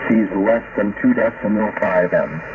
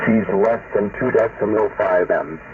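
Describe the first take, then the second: No difference in how they are said.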